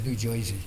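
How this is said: It is said in a strong New York accent.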